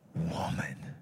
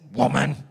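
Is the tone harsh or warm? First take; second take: warm; harsh. First: It is said in a warm, tender tone. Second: It is said in a harsh, cold tone.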